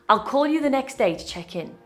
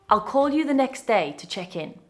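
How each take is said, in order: Both takes have the same delivery.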